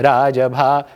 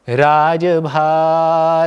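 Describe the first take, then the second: First: The beat falls on the first syllable, रा. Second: The beat falls on the last syllable, भा.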